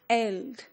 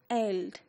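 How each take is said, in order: First: The word is said with an 'e' vowel. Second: The word is said with an 'e' vowel.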